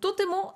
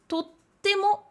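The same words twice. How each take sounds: First: The middle t is short, with no hold. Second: The middle t is held, with a catch. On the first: This is the basic, neutral word for very. "c'est l'adverbe de base" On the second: This form is a bit more casual. "avec un petit tsu. Et à ce compte-là, il va se prononcer totemo"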